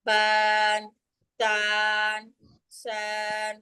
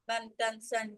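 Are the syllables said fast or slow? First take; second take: slow; fast. First: The syllables are said slowly, each held apart. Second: The syllables are said quickly, run close together. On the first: The speaker calls it wrong. "এভাবে চেক করা যাবে না" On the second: The speaker calls it right. "তাড়াতাড়ি করে পড়তে"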